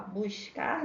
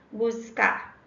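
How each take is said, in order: First: Rio "buscar" with the s as "sh"; Rio accent. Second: Said in the usual way. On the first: Shown as a demonstration. Teacher showing how Rio says it, Carioca "buscar" with hushing s. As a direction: say "buscar" Carioca-style, "bush-car". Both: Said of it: "a gente no Rio fala buscar".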